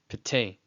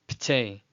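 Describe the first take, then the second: The two takes are said the same way.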